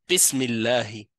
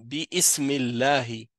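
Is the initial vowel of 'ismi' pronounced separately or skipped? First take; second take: skipped; separate. First: The vowel is skipped and the words link directly. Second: The vowel of 'ism' is pronounced separately. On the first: The speaker calls it right. "Je dis bismillahi" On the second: The speaker calls it wrong. "Je vais pas dire bi ismillahi"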